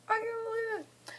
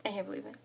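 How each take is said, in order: First: Very high, small squeal; tiny high-pitched squeal of disbelief; squeaky disbelief. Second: Soft, under-the-breath amazement; hushed disbelief; quiet disbelief. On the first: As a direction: squeak it out, overcome with excitement. Overcome, repeats in high voice. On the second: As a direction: say it softly to yourself, amazed. Overcome by moving news. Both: Real, not acted.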